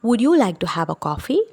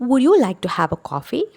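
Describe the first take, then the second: Both takes have the same delivery.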